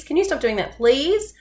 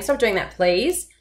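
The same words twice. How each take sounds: First: High pleading question with "please" rising up; pleading rise. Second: Firmer request, "please" still rising slightly; firm it up but keep the please. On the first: Teacher demoing a pleading request to kids. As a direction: beg it, voice climbing on "please". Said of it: "your voice is going up on that please". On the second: Teacher demoing a firmer request to kids. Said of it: "make it more firm by saying". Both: Shown as a demonstration.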